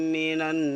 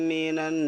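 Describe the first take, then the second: The two takes are said the same way.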